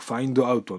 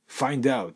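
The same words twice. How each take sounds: First: The words are said separately, katakana style. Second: The final d links into the next word. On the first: "カタカナ英語だとfind out になりますけれども" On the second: "英語的に発音すると、読み上げるとですね"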